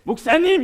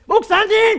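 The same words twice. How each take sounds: First: It is said in a calm, friendly voice. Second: It is said in a raised, angry voice. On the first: The speaker calls it right. "이거는 좋은데" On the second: The speaker calls it wrong. "이건 안 되는 거예요"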